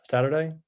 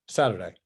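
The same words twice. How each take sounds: First: "Saturday" with a rising, questioning end. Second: "Saturday" falling, lower, as a settled answer; confirming. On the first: Trader unsure which weekend day it was, questioning "Saturday". Checks the day, then confirms. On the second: Trader settling which day it was, confirming "Saturday". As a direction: say "Saturday" with a firm drop at the end. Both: Real, not acted.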